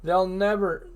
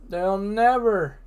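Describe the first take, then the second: First: Said in the usual way. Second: Never said slow and louder; stress on never. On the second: Shown as a demonstration. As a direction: lean hard on never.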